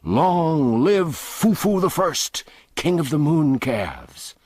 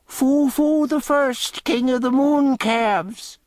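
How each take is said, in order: First: Higher, louder, slow jeering shout; mocking roar. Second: Much higher, louder, slow shrieking mockery; shrieked. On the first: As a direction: roar it like a rowdy mob. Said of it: "a roaring shout went up". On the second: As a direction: shriek it out to the crowd. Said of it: "A tinker shrieked out a suggestion".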